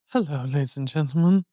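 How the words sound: It is said in a spooky, sad manner.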